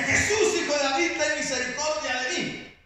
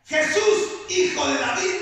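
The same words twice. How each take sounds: First: Louder, higher plea for mercy; loud cry. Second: Loud pleading cry to Jesus. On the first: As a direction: shout the name out to the crowd. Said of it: "vocifera fuertemente y dice". (clamor fuerte, más agudo) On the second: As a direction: call out high and loud, begging. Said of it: "empezó a dar voces y decía". (grito fuerte de súplica) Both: Retold or imitated.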